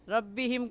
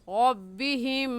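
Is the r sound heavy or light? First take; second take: light; heavy. First: The r sound is light, with unrounded lips. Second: The r sound is heavy, with rounded lips. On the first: The speaker calls it wrong. "गलत है" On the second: The speaker calls it right. "सही है"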